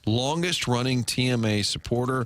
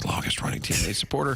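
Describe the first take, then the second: First: It is spoken in a normal full voice. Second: It is spoken in a soft whisper.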